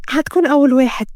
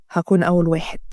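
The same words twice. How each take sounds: First: Lightly raised feminine voice; young woman's voice. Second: Low-pitched male promise; reassuring man. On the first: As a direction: play the girl seeking his promise. Heroine's line, echoed by the man. (صوت فتاة، أعلى قليلًا) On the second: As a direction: drop the pitch and reassure her. Man echoes her line as promise. (صوت رجل مطمئن، منخفض الطبقة) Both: Acted.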